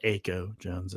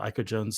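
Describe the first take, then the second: First: Aiko said AY-ko with a long A sound; commentator's mispronunciation. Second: Said in the usual way. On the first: Retold or imitated. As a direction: Aiko Jones said the way the announcer did, AY-ko. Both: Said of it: "as the commentator was calling her".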